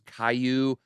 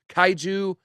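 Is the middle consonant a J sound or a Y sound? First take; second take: Y sound; J sound. First: The middle consonant is a Y sound. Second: The middle consonant is a J sound. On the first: The speaker calls it wrong. "I thought it was like Caillou" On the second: The speaker calls it right. "I think it's Kaiju. It's K A I like Kai, then J U"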